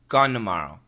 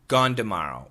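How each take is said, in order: First: Tomorrow starts with an N sound. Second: Tomorrow starts with a D sound. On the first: "Gone n n" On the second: "With the D sound. Gone d"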